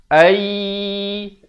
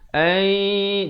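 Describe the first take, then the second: First: It is said with no nasal hum. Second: It is said with a light nasal hum. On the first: The speaker calls it wrong. "itu kita dah masuk tapi dengung tak ada" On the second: The speaker calls it right. "dia sampai ke hidung itu bunyinya itu"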